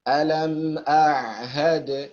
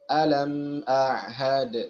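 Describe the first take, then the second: Both takes have the same delivery.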